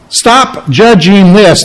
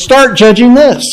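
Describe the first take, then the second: First: "Stop" leaned on, slow and deliberate; slow it down and land hard on "Stop"; stress on stop. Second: "Start" punched much higher, contrasting with stop; stress on start. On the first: Pastor reading the negative command, weight on stop. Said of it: "That's put in a negative context". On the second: Pastor flipping the command, higher emphasis on start. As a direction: lift "Start" high and bright against the earlier stop. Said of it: "But he says". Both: Shown as a demonstration.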